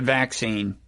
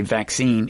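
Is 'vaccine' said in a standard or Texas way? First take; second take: Texas; standard. First: It is said the Texas way. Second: It is said the non-Texas way.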